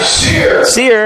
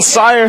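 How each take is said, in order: First: The name rhymes with 'fear'. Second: The name rhymes with 'fire'. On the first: The speaker calls it right. "Sear, I should say" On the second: The speaker calls it wrong. "I've been saying it wrong all week"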